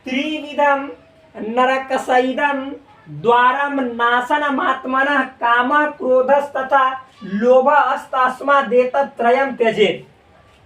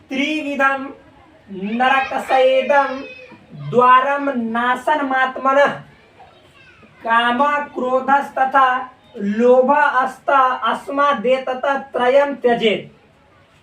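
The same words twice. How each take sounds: First: The verse is recited at a fast pace. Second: The verse is recited at a slower pace.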